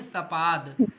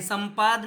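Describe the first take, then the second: First: No nasal sound follows the first syllable. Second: A nasal n sound follows the first syllable. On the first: The speaker calls it right. "क्या कह रहे हैं? सपाद। आप मेरे उच्चारण को ध्यान से सुनिए" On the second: The speaker calls it wrong. "संपाद नहीं कह रहे हैं"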